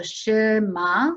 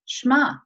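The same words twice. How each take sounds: First: Shema with two full syllables, she-MA; slow, split Shema into two beats; American Shema. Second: Shema run together as one beat, shma; Israeli Shema. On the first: Teacher showing kids' version: Shema in two slow syllables. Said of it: "That does sound like two syllables in English". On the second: Teacher showing the Israeli way: Shema as one syllable, shma. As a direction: clip Shema into a single syllable. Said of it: "It's one syllable as we play it out". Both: Shown as a demonstration.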